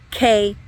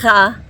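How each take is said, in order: First: The letter is said as a stop, k. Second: The letter is said with throaty friction. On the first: The letter has a dagesh. "that plosive sound, a stop sound" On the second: The letter has no dagesh. "it's going to have a fricative sound"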